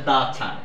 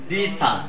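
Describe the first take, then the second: First: The word 'the' sounds like 'thuh'. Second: The word 'the' sounds like 'thee'.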